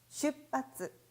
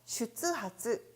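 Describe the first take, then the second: First: The middle is pronounced as a doubled 'pp'. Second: The middle is pronounced as 'tsu' then 'ha'. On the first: The speaker calls it right. "정답은 바로 이 번" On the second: The speaker calls it wrong. "슈츠하츠라는 발음이 없네"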